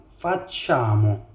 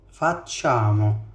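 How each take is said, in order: The two takes are said the same way.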